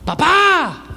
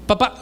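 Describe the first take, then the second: First: High-pitched holler for dad; high, hammed-up kid calling out; imitated child's yell. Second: Understated, hesitant call to dad; mild, unassuming "dad"; timid older son. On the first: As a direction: yell for dad like a demanding little boy. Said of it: "porque está gritando". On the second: Acted. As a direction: call dad tentatively, without raising the voice. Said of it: "Kenji David el mayor me dice".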